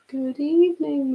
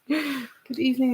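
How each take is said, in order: First: It is said in a formal, teacher-like voice. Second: It is said in an ordinary conversational voice.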